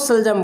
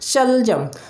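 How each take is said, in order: First: It begins with a short plain s sound. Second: It begins with a slightly drawn-out sh sound. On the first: The speaker calls it wrong. "ना कि वो सलजम बोले" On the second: The speaker calls it right. "थोड़ा सा स को क्या करना चाहिए, थोड़ा सा खींचना चाहिए"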